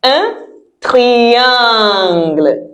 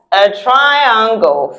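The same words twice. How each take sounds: First: "triangle" as a very slow French "tree-ahn-gluh"; French pronunciation. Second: "triangle" the English way, "try-ang-gol"; English pronunciation. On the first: Teacher models the French shape for pupils, French pronunciation. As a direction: stretch "triangle" out slowly, with I as "ee". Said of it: "the sound in French is different". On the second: Teacher confirms the meaning to pupils, English pronunciation. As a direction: say "triangle" slowly in English, with I as "eye". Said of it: "Same spelling as English". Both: Shown as a demonstration.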